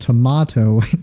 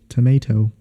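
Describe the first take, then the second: First: It is said with a non-American pronunciation. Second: It is said with an American pronunciation. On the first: The speaker calls it right. "When it should be pronounced tomato" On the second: The speaker calls it wrong. "That's how Americans say it so weird"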